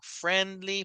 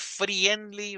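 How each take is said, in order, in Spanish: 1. La primera sílaba suena como la palabra 'friend'. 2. La primera vocal sigue la escritura, no 'friend'. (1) "Sino friendly, porque viene de la palabra friend" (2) "No es friendly"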